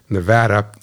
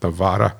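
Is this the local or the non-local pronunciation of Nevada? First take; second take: local; non-local. First: The word is said the way locals say it. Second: The word is said the non-local way. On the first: The speaker calls it right. "as they say it" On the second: The speaker calls it wrong. "not Nevada"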